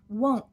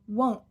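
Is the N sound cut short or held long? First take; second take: cut short; cut short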